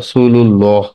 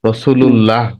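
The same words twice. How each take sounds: First: The 'l' in 'llah' is thick and heavy. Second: The 'l' in 'llah' is thin and light. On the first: The speaker calls it right. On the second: The speaker calls it wrong.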